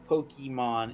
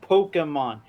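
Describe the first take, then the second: First: The middle syllable ends in an 'ee' sound. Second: The middle syllable has no 'ee' sound. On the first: The speaker calls it wrong. "always pronounces it as Pokemon, and it gets me mad" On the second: The speaker calls it right. "because it's Pokemon. There's no Y in the name"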